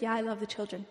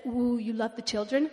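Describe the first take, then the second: First: Said in the usual way. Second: Lightly voiced pastor, drawn "ooh", rising question; a hint of pastor impression; Pastor Shangwei. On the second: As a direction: imitate a funny pastor sounding impressed. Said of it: "he talks like this".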